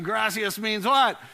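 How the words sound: Gracias is said with a rolled Spanish R.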